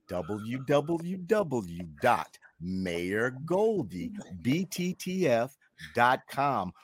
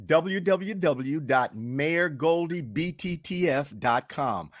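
First: Very slow, spelled-out web address; slow, measured dictation of a URL; slower. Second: Said in the usual way. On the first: Shown as a demonstration. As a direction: draw out each letter and word so it can be copied down. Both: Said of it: "I'll do it slower".

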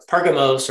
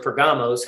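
First: PERgamos, stressed on the first syllable; Pergamos pronunciation. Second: PerGAmos, stressed on the middle syllable; alternative Pergamos pronunciation. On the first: Teacher offering one way to say a place name, Pergamos stressed up front. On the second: Teacher offering another way to say a place name, Pergamos stressed mid-word. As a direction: say Pergamos with the weight on GA. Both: Shown as a demonstration. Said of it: "however you wanna say it".

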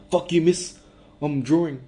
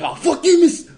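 First: A hint of a Kiwi kid snapping at his teacher; lightly voiced Kiwi schoolboy talking back; light Kiwi accent. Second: Much higher, louder Kiwi schoolboy yelling at his teacher; hammed-up Kiwi kid shouting back, pitched way up; Kiwi accent. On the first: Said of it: "that was a Kiwi accent". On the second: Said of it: "that's Kiwi too".

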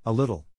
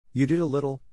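First: Offended hauteur, short falling echo; haughty. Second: Offhand, pitched up; careless. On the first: Slighted girl answering the boy, haughty. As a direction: echo it with wounded dignity. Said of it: "she replied with hauteur". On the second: Boy dancing on, crediting the girl carelessly. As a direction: toss it off carelessly, high. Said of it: "Peter said carelessly". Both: A narrator's reading.

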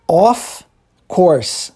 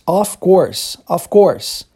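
First: "of", a clear pause, then "Course"; two separate words. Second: "of course" run together as one unit; two words linked. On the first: Teacher shows it is two words, said separately. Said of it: "São duas palavras, tá vendo?". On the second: Teacher unites both words for students, linked pronunciation. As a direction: join the "f" of "of" straight onto "course". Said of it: "você une as duas". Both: Shown as a demonstration.

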